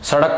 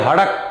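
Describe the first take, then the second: First: The word begins with an s sound. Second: The word begins with an h sound. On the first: "सड़क को बोलेंगे" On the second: "सै की जगह बोलते हैं... बोलेंगे हड़क"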